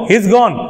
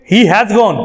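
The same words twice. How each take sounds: First: He is gone run together as he's gone; stylish he's. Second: He has gone with full has. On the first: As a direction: slide he into has. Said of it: "बन गया ना stylish". (he is gone stylish जोड़कर) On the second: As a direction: keep has separate. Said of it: "हम ये नहीं कहेंगे". (He has gone पूरा) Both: Shown as a demonstration.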